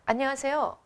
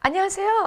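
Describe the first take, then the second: First: The greeting sounds flat and unenthusiastic. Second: The greeting sounds bright, cheerful and higher.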